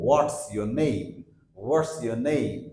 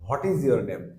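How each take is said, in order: First: "what's your name" run together as wots-yo-name; corrected contraction. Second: "what is your name" with every word full, is-your blurred toward iji-or; common mispronunciation. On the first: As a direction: join "what's" to a weak "your". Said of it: "So সেই ক্ষেত্রে আমরা বলবো". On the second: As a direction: say "what is your name" uncontracted, two syllables in "what is". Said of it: "আমরা সাধারণত এরকম বলি". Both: Shown as a demonstration.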